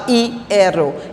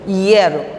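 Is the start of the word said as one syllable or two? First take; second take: two; one. First: The opening i and e are separate syllables. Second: The opening i and e form one syllable. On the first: The speaker calls it wrong. "não falo hierro" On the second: The speaker calls it right. "uma, uma sílaba só"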